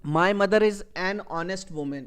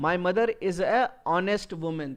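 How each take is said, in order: First: Slow correct example. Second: Slow wrong example. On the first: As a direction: read slowly and clearly, linking "an honest". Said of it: "یہ sentence صحیح ہے". (صحیح جملہ، آہستہ اور صاف "an honest") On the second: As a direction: read slowly and clearly, with a plain "a" before honest. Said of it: "یہ ہمارا غلط جملہ ہو گیا". (غلط جملہ، آہستہ اور صاف "a honest") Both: Shown as a demonstration.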